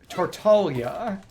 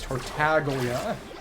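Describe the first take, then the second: First: The G is pronounced very softly. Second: The G is pronounced very hard. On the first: The speaker calls it right. "in Japanese it's Tartaglia, and there is a G there, it's just an exceptionally soft G" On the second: The speaker calls it wrong. "how the English version says Tartaglia, with an almost gratingly hard G"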